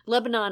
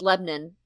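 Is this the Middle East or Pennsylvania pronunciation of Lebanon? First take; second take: Middle East; Pennsylvania. First: It is said the usual way for the country. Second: It is said the local Pennsylvania way. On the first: It names the country. "Lebanon, of course, is in the Middle East" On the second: It names the Pennsylvania town. "Lebanon is in Pennsylvania"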